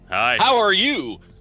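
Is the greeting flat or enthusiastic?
enthusiastic. The greeting sounds lively and enthusiastic.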